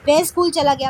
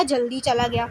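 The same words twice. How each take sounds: First: Said in the usual way. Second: जल्दी picked out as the added word; stress on जल्दी. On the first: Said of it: "मैं ये भी तो बोल सकती थी". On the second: Shown as a demonstration. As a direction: lean on जल्दी, then let the rest fall. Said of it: "लेकिन मैंने बोला".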